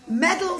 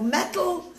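First: "medal" with a clear d, louder; corrected to medal. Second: Said in the usual way. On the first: Real, not acted. Storyteller fixes a slip about the award, corrected "medal". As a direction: say "medal" firmly with a d in the middle.

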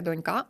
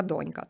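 First: Донька stressed on the last syllable, ка; wrong stress донькА. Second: Донька stressed on the first syllable, до; correct stress. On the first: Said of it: "значить це не донька". (неправильно донькА) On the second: (правильно дОнька) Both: Shown as a demonstration.

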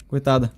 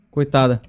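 Both takes have the same delivery.

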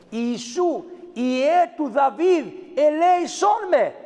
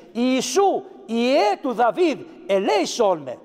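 First: Crying out for mercy. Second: Said in the usual way. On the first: Retold or imitated. Blind beggar calling out to Jesus for mercy, pleading shout. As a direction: call out like a blind man begging from the roadside. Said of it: "φώναζε". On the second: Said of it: "Παίρνει λοιπόν μέσα από το Ευαγγέλιο αυτή τη λέξη".

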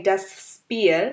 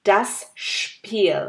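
First: Spiel with plain English sp, said slowly; wrong English sp. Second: Spiel with a heavy shp onset; weight the s of Spiel as shp. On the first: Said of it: "আমরা যেমন বলি নাই". (ভুল উচ্চারণ, ইংরেজি স্প দিয়ে Spiel) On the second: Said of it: "আমরা যেমন বলি নাই das Spiel". (Spiel এর স এর উপরে ভার, শ্পীল) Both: Shown as a demonstration.

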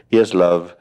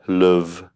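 First: Said in the usual way. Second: "love" said with a short oo vowel, like "luv"; Liverpool love. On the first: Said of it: "That's the way they say it in England". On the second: Retold or imitated. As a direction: say "love" the Liverpool way, rounded oo sound. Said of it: "That's the way they say it in England, in Liverpool".

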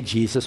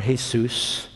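First: Said in the usual way. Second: "Jesus" said the Spanish way, hay-SOOS; Spanish pronunciation. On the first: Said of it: "you don't say Jesus". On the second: Shown as a demonstration. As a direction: say "Jesus" with an H and stressed second syllable. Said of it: "you say Jesus".

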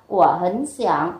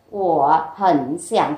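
First: "của hấn xẻng" with "hấn" rising into a low "xẻng"; "của hấn xẻng" as linked speech after tone change; third-tone sandhi. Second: "Của hấn xẻng" with each syllable in its written tone; "Của hấn xẻng" with separate low dipping tones; original third tones. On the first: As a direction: lift "hấn" before "xẻng". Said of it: "chúng ta sẽ đọc là". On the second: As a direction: say "Của hấn xẻng" word by word, before sandhi. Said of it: "thì chúng ta sẽ đọc là". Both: Shown as a demonstration.

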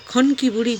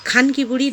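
First: "খনকি" with a rounded "o" in the first syllable; disguised pronunciation. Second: "খানকি" with an open "aa" in the first syllable; pronounced with "aa". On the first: Vlogger shows the disguised insult, "খনকি" said with rounded "o". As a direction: say "খনকি" as khon-ki, no open a. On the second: Vlogger spells out the intended insult, "খানকি" said with "aa". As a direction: say "খানকি" with a long open a, khaan-ki. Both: Shown as a demonstration. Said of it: "কথাটার কি উচ্চারণটা কি বুঝি না".

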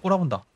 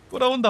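First: Said in the usual way. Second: High squeaky mock complaint; high mocking squeal. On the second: Real, not acted. Spider stares, repeated mock.

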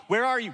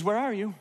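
First: A police officer demanding, higher and louder; stern police officer. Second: Gently asking, full of concern. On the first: Retold or imitated. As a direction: bark it like a cop who caught you hiding. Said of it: "a police officer". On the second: Shown as a demonstration. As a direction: call out like a father who misses his child. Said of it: "He's concerned".

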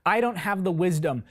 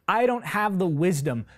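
The two takes are said the same way.

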